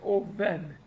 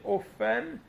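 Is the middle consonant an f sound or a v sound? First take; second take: v; f. First: The middle consonant is a soft v sound. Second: The middle consonant is a strong f sound. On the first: The speaker calls it right. "hanem egy vét betűt használunk, ami oven" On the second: The speaker calls it wrong. "nem egy fé betűt használunk, ami offen"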